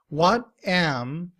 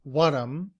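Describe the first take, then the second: First: Both words are pronounced fully. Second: The words are reduced and linked together.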